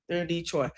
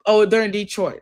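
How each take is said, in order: First: Softer, settled repeat; quiet confirmation. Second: Louder, surprised oh on finding it; the answer just popped up, say oh, they're in Detroit with a jolt; sudden discovery. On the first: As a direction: confirm it to yourself, dropping the voice on They're in Detroit. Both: Real, not acted. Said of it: "I see it now".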